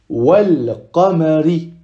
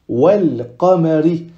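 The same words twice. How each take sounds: The two takes are said the same way.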